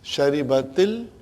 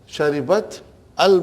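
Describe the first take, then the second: First: An i vowel links the t to the l. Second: The t and al are said without a linking vowel. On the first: The speaker calls it right. "the first sukoon will always get a kasra" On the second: The speaker calls it wrong. "two sukoons cannot be pronounced"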